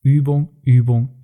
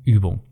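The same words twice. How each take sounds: First: Übung, Übung said slowly, each Übung stressed; slow emphatic repetition. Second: Übung dropped low with a falling close; final low drop. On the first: Coach driving the point home to listeners, slow stressed repetition. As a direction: lean into every Übung, slowly. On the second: Coach closing the list of three, low final fall. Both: Shown as a demonstration. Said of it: "dann hilft nur noch eins".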